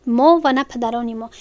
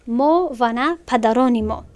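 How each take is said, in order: First: Said in the usual way. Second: ما و نه پدران ما read slowly, each word apart; slow, careful translation. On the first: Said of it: "teacher repeats translation plainly". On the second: Shown as a demonstration. Teacher slowly translating verse for the class. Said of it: "teacher translates verse slowly".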